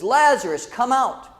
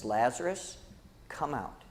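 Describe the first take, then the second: First: Higher, slightly raised voice, acting the call; mild mock shout. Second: Low, hushed quote, much softer; softly acted call. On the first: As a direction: call toward the tomb as Jesus, restrained. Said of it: "he shouted with a loud voice". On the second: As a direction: say the summons quietly, almost to yourself. Same call repeated for human nature.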